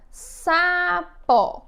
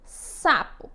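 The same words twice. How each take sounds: First: "Sapó" stretched into two separate beats, sa, pó; syllable by syllable. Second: Said in the usual way. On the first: Shown as a demonstration. Teacher showing children the syllables of "Sapó", split slowly. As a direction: say "Sapó" slowly, mouth opening for each syllable. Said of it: "Quantas vezes eu abri minha boca?". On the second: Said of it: "vamos aqui observar a primeira palavra".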